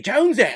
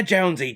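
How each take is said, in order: First: "Jonesy!" shouted much higher and louder; Ray Winstone yelling. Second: Imitated call of "Jonesy" with a falling end, less loud; Ray Winstone calling. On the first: Retold or imitated. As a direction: bellow "Jonesy!" at full voice, way up high. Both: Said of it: "the guy from Indiana Jones and the Kingdom of the Crystal Skull".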